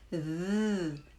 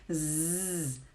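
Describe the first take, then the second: First: A long buzzing sound with the tongue between the teeth. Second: A long buzzing z with the tongue behind the teeth. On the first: "coloque a sua língua entre os seus dentes" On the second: "fazer um longo som de Z"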